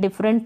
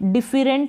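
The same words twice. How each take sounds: First: The middle e vowel is silent. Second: The middle e vowel is pronounced. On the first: The speaker calls it right. "डिफरेंट पढ़ते हैं" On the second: The speaker calls it wrong. "डिफरेंट नहीं पढ़ते हैं"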